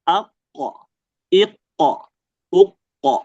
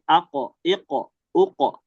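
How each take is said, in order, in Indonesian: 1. Konsonan akhirnya ditahan dengan sedikit jeda. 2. Konsonan akhirnya pendek, tanpa jeda. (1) "kita kasih jeda dikit... Tapi kita tahan" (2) "kalau sukun biasa, nah dia kita usahakan jangan kasih jeda"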